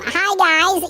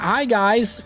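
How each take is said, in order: First: It is said in a high-pitched voice. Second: It is said in a normal voice.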